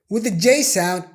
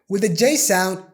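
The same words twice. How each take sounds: The two takes are said the same way.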